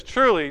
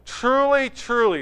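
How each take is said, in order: First: Said in the usual way. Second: "Truly, truly" with the first "Truly" pitched higher and pushed harder; emphatic double truly. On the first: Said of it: "not just once, where he says". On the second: Shown as a demonstration. Preacher stressing Jesus' emphatic "Truly, truly". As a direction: land both "truly" words with weight, the first one peaking. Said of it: "This is emphatic".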